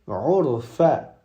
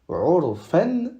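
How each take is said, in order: First: The word ends on a plain a vowel. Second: The word ends with an n sound. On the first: The speaker calls it right. "mais on va dire urfa" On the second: The speaker calls it wrong. "On ne va pas dire urfan"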